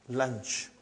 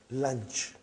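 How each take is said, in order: Both takes have the same delivery.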